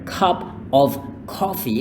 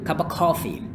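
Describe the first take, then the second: First: The word 'of' is pronounced fully. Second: The word 'of' is reduced to 'uh'.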